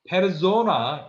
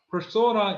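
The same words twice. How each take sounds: First: It is pronounced the German way. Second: It is pronounced the English way.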